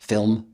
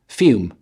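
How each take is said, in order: First: It has a rich, dark voiced L. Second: The L turns into a W sound. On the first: "Americans enjoy pleasantly rich voiced L endings" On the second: "The Cockney fails to form the L sound, degenerating into a passive W"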